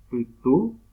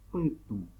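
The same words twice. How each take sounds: First: Said in the usual way. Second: "putú" with the final vowel through the nose; nasal vowel. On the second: Shown as a demonstration. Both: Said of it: "la vocal suena por la nariz".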